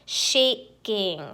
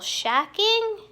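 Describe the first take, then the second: First: The first vowel is long, like 'shay'. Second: The first vowel is short, like 'sha'. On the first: The speaker calls it right. "let me do shay" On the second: The speaker calls it wrong. "That doesn't sound right, does it? ... Instead of sha"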